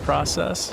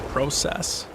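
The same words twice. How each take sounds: First: The word is said the ordinary, unmarked way. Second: The word is said with a Canadian pronunciation.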